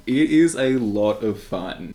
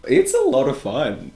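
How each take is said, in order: First: Slow, with "is" pressed hard; stress on IS. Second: Said in the usual way. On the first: Shown as a demonstration. Reviewer insisting to viewers, stressing "is". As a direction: lean into "is" to insist it really is fun.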